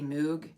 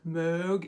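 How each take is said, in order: First: The vowel is a plain oo sound. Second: The vowel is front and rounded, between o and e. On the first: The speaker calls it wrong. "a lot of people just say Moog. Technically that's wrong" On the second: The speaker calls it right. "some sort of German thing where you have to like round your vowels to an O, but then say an E"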